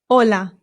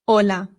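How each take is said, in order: The two takes are said the same way.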